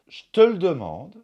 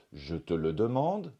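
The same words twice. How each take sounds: First: "Je te le demande" with its E sounds dropped; reduced form. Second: Said in the usual way. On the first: Shown as a demonstration. Teacher giving learners a reduced "Je te le demande". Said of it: "c'est une possibilité". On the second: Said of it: "la prononciation standard".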